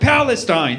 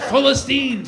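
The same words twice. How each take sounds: First: The name is said with an English pronunciation. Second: The name is said with an Arabic pronunciation. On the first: The name feels stale. The speaker calls it wrong. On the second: The name feels free. The speaker calls it right.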